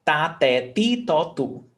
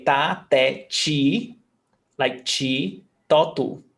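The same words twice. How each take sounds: First: Ta, te, ti, to, tu with a plain TEE; hard T throughout. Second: Ta, te, chi, to, tu with CHEE for ti; regional CH. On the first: Teacher shows the logical series, hard T throughout. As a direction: recite ta, te, ti, to, tu evenly, all hard T. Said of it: "it would follow a logic". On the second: Teacher contrasts her region's syllables, regional CH. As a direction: recite ta, te, chi, to, tu, picking out chi. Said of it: "But where I come from". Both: Shown as a demonstration.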